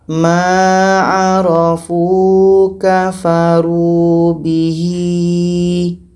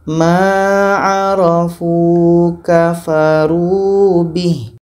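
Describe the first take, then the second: First: The final h is followed by a lengthened vowel. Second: The final h is silent-ended with no vowel. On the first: The speaker calls it wrong. "Tidak boleh kita panjangkan" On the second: The speaker calls it right. "Kalau kita berhenti, kalau kita wakaf, kita matikan hanya"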